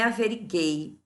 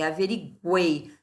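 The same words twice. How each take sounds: First: The u is silent, like averiguei with gi. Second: The u is pronounced, like averigwei. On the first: The speaker calls it wrong. "não é averiguei" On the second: The speaker calls it right. "é averiguei. Eu falo U"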